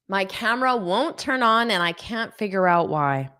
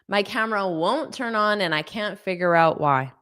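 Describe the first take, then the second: Both takes have the same delivery.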